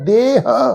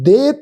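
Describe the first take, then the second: First: The word ends with an added breathy h sound. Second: The word ends cleanly on the vowel sound. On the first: The speaker calls it wrong. "इस ढंग नाल पाठ उच्चारण नहीं करना" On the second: The speaker calls it right. "दे पाठ"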